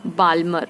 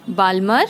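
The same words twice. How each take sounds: The two takes are said the same way.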